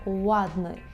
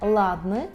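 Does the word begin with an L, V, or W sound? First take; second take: W; L. First: The word begins with a rounded W-like glide. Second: The word begins with a clear L sound. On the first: The speaker calls it right. "це ладний. ... обов'язково потрібно витягнути губи у трубочку" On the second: The speaker calls it wrong. "Це не ладний"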